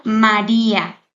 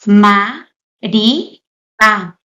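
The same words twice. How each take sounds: First: Said in the usual way. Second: "ma, ri, a" en tres sílabas, con pausa entre cada una; separado por sílabas. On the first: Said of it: "esta palabra está formada por tres sílabas". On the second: Shown as a demonstration. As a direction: say "ma, ri, a" one syllable at a time, each set apart. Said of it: "está formada por tres sílabas". ("ma, ri, a" sílaba por sílaba, con pausas)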